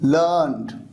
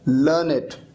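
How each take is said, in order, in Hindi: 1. अंत एक ही अक्षर है, learnd। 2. अंत में एक अतिरिक्त अक्षर है, learn-ed। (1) "जब इसका यूज वर्ब की थर्ड फॉर्म की तरह होता है तो इसका प्रोनाउंसिएशन होगा" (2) "जब इसका यूज एक एडजेक्टिव की तरह होता है"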